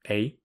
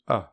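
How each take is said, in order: First: The vowel is said in its full form. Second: The vowel is said as a weak reduced sound.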